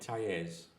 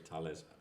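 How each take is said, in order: First: The middle consonant sounds like a Y. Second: The middle consonant sounds like an L. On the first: The speaker calls it wrong. "I want to pronounce that as Y because that's what you do in Spanish" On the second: The speaker calls it right. "but I'm sure it's Tales"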